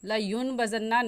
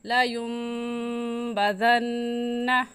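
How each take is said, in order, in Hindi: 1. b से पहले साफ़ n आवाज़ आती है। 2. b से पहले नासिका वाली m आवाज़ आती है। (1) "नहीं पढ़ेंगे" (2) "हम ऐसे पढ़ेंगे"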